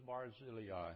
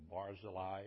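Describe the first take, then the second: First: Barzillai stressed on ZIL, bar-ZIL-ee-eye; stress on second syllable. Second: Barzillai stressed on BAR, BAR-zuh-lie; stress on first syllable. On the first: Preacher naming the third man, Barzillai stressed on ZIL. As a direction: put the emphasis in Barzillai on the middle, ZIL. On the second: Preacher offering another reading of the name, Barzillai stressed on BAR. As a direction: put the emphasis in Barzillai up front, on BAR. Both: Shown as a demonstration. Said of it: "depending on where you put the emphasis".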